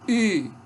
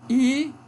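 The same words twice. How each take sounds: Both takes have the same delivery.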